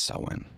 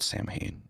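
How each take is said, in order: First: Samhain said as SOW-in; Samhain with silent m, like "sow-win"; correct pronunciation. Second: Samhain read out as SAM-hayn; Samhain with the m and h sounded; as it is spelled. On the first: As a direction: pronounce Samhain the Gaelic way, SOW-in. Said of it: "but it's, it's spelled Samhain". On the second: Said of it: "it's, it's spelled Samhain". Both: Shown as a demonstration.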